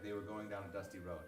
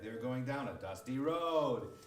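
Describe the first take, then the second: First: It is read with a plain, even tune. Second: The pitch rises oddly for no reason.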